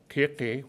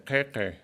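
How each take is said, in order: First: The vowels are said high, not lowered. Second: The vowels are said lower, more open. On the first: A monolingual speaker would say it this way. "which would be what a monolingual would say" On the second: A bilingual who learned Quechua first says it this way. "The vowel gets physically lowered"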